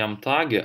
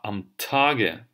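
First: The t is said without a puff of air. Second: The t is said with a puff of air. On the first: The speaker calls it wrong. "Не am Tage" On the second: The speaker calls it right. "а am Tage"

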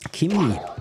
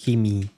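First: The word begins with a hard K sound. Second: The word begins with a soft CH sound. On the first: This is the speaker's own regional way of saying it. The speaker calls it right. "Chemie. Und nicht Chemie. Für mich" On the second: This is another region's way of saying it. The speaker calls it wrong. "Und nicht"

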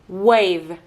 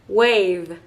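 Both takes have the same delivery.

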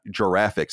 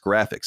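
First: The word begins with a J sound. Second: The word begins with a hard G sound. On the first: The speaker calls it wrong. "it's not giraffics" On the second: The speaker calls it right. "it's graphics"

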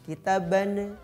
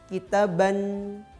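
First: A short bouncing vowel follows the final n. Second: The word ends cleanly on the n sound. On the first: The speaker calls it wrong. "ada pantulannya" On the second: The speaker calls it right. "Yang tepat adalah"

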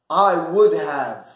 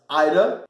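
First: Would have is said in full. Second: Would have shrinks to a short da sound.

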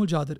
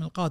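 First: The name starts with a j sound. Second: The name starts with a q sound. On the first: This is the local form that replaced the original. The speaker calls it wrong. "هي أساسا الاسم مو الجادر" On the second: This is the original form of the name. The speaker calls it right. "اسم القادر"

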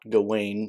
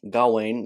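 First: The stress is on the second syllable. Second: The stress is on the first syllable. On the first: The speaker calls it wrong. "not Gawain ... and not the W" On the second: The speaker calls it right. "the emphasis is on the G"

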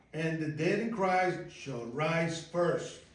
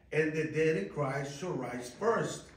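The two takes are said the same way.

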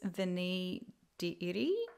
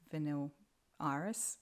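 First: The name is said with a French-style pronunciation. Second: The name is said with an Australian accent.

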